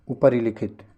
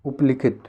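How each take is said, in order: First: Said in the usual way. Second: उपलिखित without the ri syllable; missing syllable. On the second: Shown as a demonstration. Teacher showing the wrong form, उपलिखित with ri dropped. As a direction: say उपलिखित as up-likhit. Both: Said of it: "ये वाला सही है".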